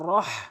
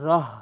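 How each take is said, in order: First: The h is a raspy sound from the throat. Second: The h is a light, soft breath sound. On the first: The speaker calls it right. "বলতে হবে হাটি হলকের মাঝখান থেকে" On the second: The speaker calls it wrong. "অধিকাংশ লোক ভুল উচ্চারণ করে রহ, ছোট হা"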